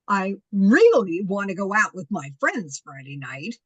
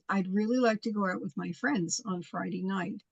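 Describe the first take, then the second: First: It is said in a rude, demanding tone. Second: It is said in a polite, pleasant tone.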